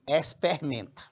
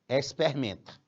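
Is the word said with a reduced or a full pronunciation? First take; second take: reduced; reduced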